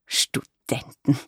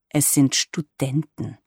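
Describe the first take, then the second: First: A very slow, drawn-out, appalled Studenten; mock horror stretched over one word; aghast. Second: A slow, mildly irritated correction; lightly annoyed, spelling it out. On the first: Mother recoils at the word Studenten, aghast and drawn-out. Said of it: "rief sie entsetzt aus". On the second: Granddaughter corrects her mother about her friends, mildly irritated. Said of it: "sagte ich gereizt". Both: A narrator's reading.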